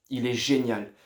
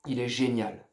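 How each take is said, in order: Both takes have the same delivery.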